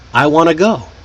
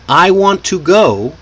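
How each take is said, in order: First: The words are linked and reduced together. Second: Each word is pronounced fully and separately. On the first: "These reduced forms make you sound more natural" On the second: "I want to go becomes"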